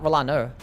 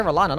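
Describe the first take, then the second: First: Rolano said as "ro-LAH-ner"; disputed R ending. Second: Rolana with a plain "uh" ending; own no-R ending. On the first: Retold or imitated. Streamer rejecting chat's version, R ending. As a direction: put an "er" on the end of Rolano. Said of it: "not Rolano". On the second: Shown as a demonstration. Streamer insisting on own version, no R. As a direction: finish Rolana without any R. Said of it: "I say, I say Rolana".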